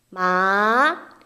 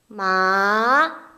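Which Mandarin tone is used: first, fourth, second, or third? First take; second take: second; second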